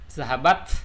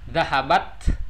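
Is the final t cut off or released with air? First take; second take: released; released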